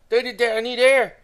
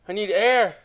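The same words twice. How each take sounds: First: Louder, slower, higher and breathless; desperate plea for air. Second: Breathless gasp for air; short of air, trailing off; out of breath. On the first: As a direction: beg for air, drawing it out. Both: Real, not acted. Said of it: "I'm running out of breath".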